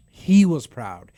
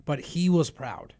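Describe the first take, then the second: First: "proud" said slowly and much louder; emphatic. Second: Said in the usual way. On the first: Real, not acted. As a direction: hit "He was proud" hard and slow.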